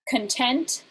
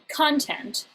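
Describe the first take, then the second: First: The stress is on the second syllable. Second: The stress is on the first syllable. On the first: "with the stress on the second syllable" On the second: "with the stress on the first syllable"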